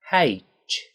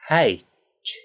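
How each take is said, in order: First: The two sounds are joined into one smooth sound. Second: The same.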